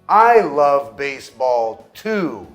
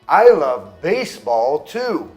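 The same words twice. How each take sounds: First: The stress falls on the word too. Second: The stress falls on the word baseball. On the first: I like it as well. "Se eu coloco o estresse no also e no to" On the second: The focus shifts to what is loved. "Se eu coloco o estresse na palavra baseball"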